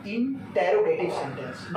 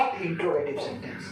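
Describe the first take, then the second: First: Interrogative with a full "in-te-ro" start; correct pronunciation. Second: Interrogative shortened to "intro-gative"; wrong pronunciation. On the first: Teacher correcting the children, interrogative pronounced in-te-ro-gative. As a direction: say interrogative as in-te-ro-ge-tive, keeping the "te". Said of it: "इसका उच्चारण होगा". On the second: Teacher showing what not to say, interrogative mispronounced intro-gative. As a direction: say interrogative as in-tro-ge-tive, swallowing the "te". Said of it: "not interrogative sentence". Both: Shown as a demonstration.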